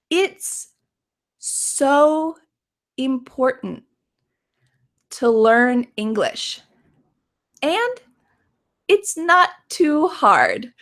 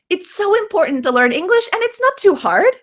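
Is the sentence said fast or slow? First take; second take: slow; fast. First: The sentence is spoken slowly. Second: The sentence is spoken quickly. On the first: "let's say the sentence slowly" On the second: "Let's say this quickly"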